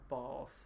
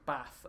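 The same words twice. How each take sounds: First: It is said the southern English way. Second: It is said the northern English way.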